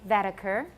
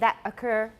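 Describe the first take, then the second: First: The T links smoothly into the vowel. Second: The T is cut off before the vowel. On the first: The speaker calls it right. "we like to say that occur" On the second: The speaker calls it wrong. "we don't say that occur"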